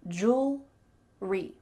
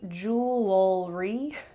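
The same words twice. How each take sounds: First: It is said with two syllables. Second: It is said with three syllables. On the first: The speaker calls it right. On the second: The speaker calls it wrong.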